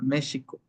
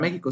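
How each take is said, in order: First: The x is said as an sh sound. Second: The x is said as a throaty h sound. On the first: This is how it was said in the past. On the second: This is how it is said today.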